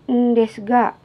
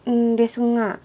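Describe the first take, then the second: First: The final syllable starts with a hard g. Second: The final syllable starts with a nasal ng. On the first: "bisa pakai nga atau ga" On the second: "bisa diucapkan ... ndesu nga"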